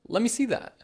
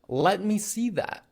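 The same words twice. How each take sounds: First: Let me is run together as lemme. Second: Let me is said as two full words. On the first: "let me becomes lemme" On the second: "Instead of saying"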